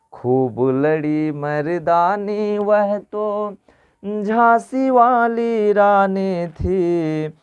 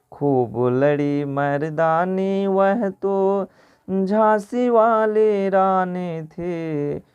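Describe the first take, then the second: No difference in how they are said.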